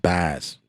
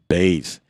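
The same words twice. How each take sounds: First: "bass" with a short A as in "cat", the mistaken way. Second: "bass" with a long A, rhyming with "base". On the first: Vlogger demos the wrong short-A "bass" he gets corrected on. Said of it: "and not a short A". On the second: Vlogger demos the correct long-A "bass" commenters demand. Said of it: "A long A". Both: Shown as a demonstration.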